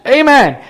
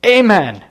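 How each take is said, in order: First: Much higher exclaimed amen; acted high-pitched cry of surrender; relenting amen. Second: Acted strained, higher-pitched amen; imitating a terrified man's effortful amen; squeezed-out word. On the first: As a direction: let it burst out high, giving in. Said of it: "He, he relents". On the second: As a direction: force it out as if terrified. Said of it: "He squeezes out the words".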